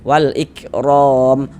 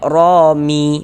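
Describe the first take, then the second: First: The word ends on a silent m sound. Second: The word ends with an added i vowel. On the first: The speaker calls it right. "kalau berwakaf di huruf mim kita baca wal ikrom rom" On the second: The speaker calls it wrong. "jangan dibaca romi baru berhenti"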